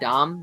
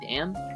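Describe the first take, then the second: First: The vowel is an open 'ah' sound, like 'dom'. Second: The vowel is a flat 'a' sound, like 'dam'. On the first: "I've always said Dom" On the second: "people pronounce it Dam"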